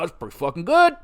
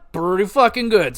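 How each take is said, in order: First: Said in the usual way. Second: Louder, hitting fucking hard; emphatic repeat. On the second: Real, not acted. Repeats his hockey verdict.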